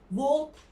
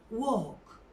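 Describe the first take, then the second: First: An L sound is heard in the word. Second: No L sound is heard in the word. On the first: The speaker calls it wrong. "Walk değil" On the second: The speaker calls it right. "L yerine yumuşak G varmış gibi"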